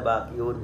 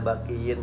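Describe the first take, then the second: First: The word ends with the sound -un. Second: The word ends with the sound -in. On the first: The word is in the nominative case. "Tidak boleh bakiun" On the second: The word is in the genitive case. "tidak boleh bakiin"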